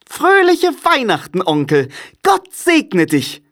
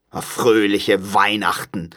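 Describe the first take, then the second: First: High-pitched, jolly nephew calling out; joyful, much higher voice; cheerful call. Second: Slow, sour mocking of the greeting; grumpy, drawn-out sarcasm; scornful echo. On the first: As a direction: sing out a merry Christmas greeting. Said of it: "rief eine fröhliche Stimme". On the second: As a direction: repeat the greeting with disdain. Scrooge scornfully echoes the greeting. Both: A narrator's reading.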